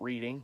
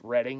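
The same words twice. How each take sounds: First: It is said like everyday 'reading'. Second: It is not said like everyday 'reading'. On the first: The speaker calls it wrong. "not Reading. It looks like Reading" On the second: The speaker calls it right. "it's pronounced Reading"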